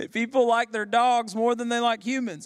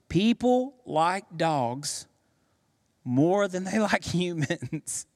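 First: Said in the usual way. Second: Laughing. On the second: Real, not acted. Punchline repeated with laughter.

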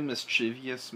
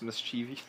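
First: "mischievous" said with an extra syllable, mis-CHIV-ee-us; pronunciation attempt. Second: "mischievous" retried as mis-CHEE-vee, softer at the end; second pronunciation attempt. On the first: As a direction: say "mischievous" ending in ee-us. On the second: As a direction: say "mischievous" questioningly with a long CHEE. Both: Shown as a demonstration. Tries two pronunciations of word.

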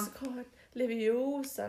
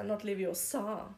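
First: Leviosa in English, slowly, stretched on the O; correcting, with Leviosa leaning on the long O; film line, O stressed. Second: Leviosa slower and softer, final A drawn out; film line, end stressed. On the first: Co-host quotes the well-known film line, Leviosa with stressed O. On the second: Co-host quotes the film's wrong version, Leviosa with long end. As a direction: mimic the wrong Leviosa, long last syllable. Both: Retold or imitated. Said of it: "was jeder kennt".

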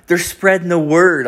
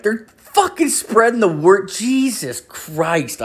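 First: Lightly voiced woman, pitched higher; neighbour's defence. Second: Very high, exaggerated parroting; mocking echo. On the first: Neighbour explaining why she let missionaries in, higher-pitched defence. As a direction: raise the voice to explain earnestly. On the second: Host mimicking his neighbour's excuse, high mocking disbelief. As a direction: parrot it way up high, ending in slow exasperation.

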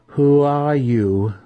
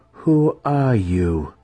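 First: Slow, high, louder question; insistent demand. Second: Slow, higher-pitched question; curious matron. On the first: Matron demanding the impostor's name with whip ready, insistent. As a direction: draw the question out, high and forceful. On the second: Matron questioning the suspected impostor, curious. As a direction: ask it slowly, more curious than concerned. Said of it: "her voice sounding more curious than concerned". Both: A narrator's reading.

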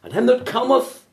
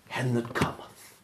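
First: "And him that cometh" cried high and loud; ringing proclamation. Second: Soft emphasis. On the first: Preacher urging sinners to come, ringing cry. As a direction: lift "cometh" up like a call. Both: Shown as a demonstration. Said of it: "Underline the word".

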